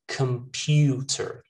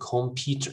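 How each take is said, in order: First: The first syllable is reduced to a schwa. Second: The first syllable has a full vowel. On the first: The speaker calls it right. "pronounced with a schwa in that first syllable" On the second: The speaker calls it wrong. "Most people just say"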